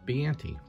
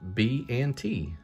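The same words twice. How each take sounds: First: The three parts are said quickly, run together. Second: The three parts are said slowly and separately.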